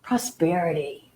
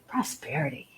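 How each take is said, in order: First: Savoring the word. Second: Prosperity breathed out much softer, trailing away; fading out. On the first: Teacher guiding listeners to feel prosperity, savoring softly. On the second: Teacher letting the felt word fade, drifting much softer. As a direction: let prosperity dissolve into near silence. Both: Shown as a demonstration. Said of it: "Just kind of feel into that".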